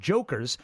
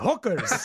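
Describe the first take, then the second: First: The word begins with a J sound. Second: The word begins with an H sound.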